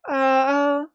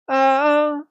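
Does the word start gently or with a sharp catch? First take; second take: gently; gently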